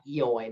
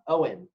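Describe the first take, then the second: First: The name is not pronounced like 'Owen'. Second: The name is pronounced like 'Owen'. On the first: The speaker calls it wrong. "that's how I would say it" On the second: The speaker calls it right. "that's how you say it"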